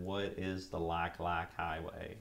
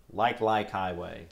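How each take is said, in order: First: Slow, drawled Southern country accent; hammed-up country accent, slow and drawn out. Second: Said in the usual way. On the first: Shown as a demonstration. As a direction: ask it like a country boy, in a Southern twang. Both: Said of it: "in probably my best country voice".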